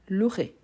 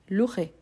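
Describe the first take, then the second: First: The E after 'lou' is silent. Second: The E after 'lou' is silent.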